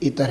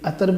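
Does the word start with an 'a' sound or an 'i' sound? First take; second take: i sound; a sound. First: The first vowel is an 'i' sound. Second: The first vowel is an 'a' sound. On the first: The speaker calls it right. "इसका सही दुरुस्त जो है वो इतर है" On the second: The speaker calls it wrong. "जो बोलते हैं वो गलत है"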